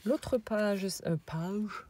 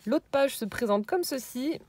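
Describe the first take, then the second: First: Mock rustic peasant accent on "L'autre page". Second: Said in the usual way. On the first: Vlogger showing album pages, self-mocking peasant accent. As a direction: slip into a hammed-up French peasant accent. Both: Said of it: "avec mon accent de paysan".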